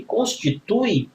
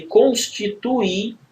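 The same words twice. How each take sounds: First: "constitui" slowly, stress on TU, ending in a gliding "ui"; diphthong reading. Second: "constituir" slowly as cons-ti-tu-Í, final r silent, stressed separate i; hiatus reading. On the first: Teacher showing a diphthong reading, "constitui" stressed on TU. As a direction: read "constitui" with u and i in one syllable. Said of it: "você tá lendo um ditongo". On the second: Teacher showing a hiatus reading, "constituir" ending on stressed Í. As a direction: split u and i in "constituir", landing on the i. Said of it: "Você tá lendo um hiato". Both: Shown as a demonstration.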